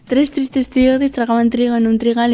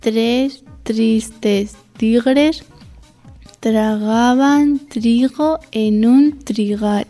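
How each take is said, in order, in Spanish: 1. La frase se dice a un ritmo rápido. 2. La frase se dice a un ritmo lento. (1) "Y rápido"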